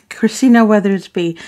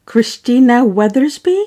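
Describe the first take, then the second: First: "Christina Weathersby." settled, falling at the end; confirmed name. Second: "Christina Weathersby?" fragend mit steigendem Ende; unsure name check. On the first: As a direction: say the name again, now sure of it. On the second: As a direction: ask the name back with a rising end, unsure how to say it. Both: Shown as a demonstration. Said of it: "Um, yep".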